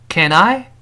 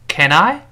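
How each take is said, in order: No difference in how they are said.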